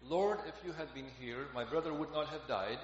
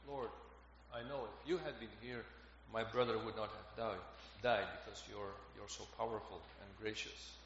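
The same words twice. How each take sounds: First: Said in the usual way. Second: Low, subdued retelling of grief; understated grief. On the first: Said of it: "When Martha says to Jesus". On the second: Retold or imitated. Martha grieving her brother before the Lord, quietly sorrowful. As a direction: let the grief sink softly, without blame. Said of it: "only expresses her grief".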